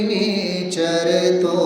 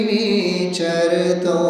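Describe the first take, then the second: Both takes have the same delivery.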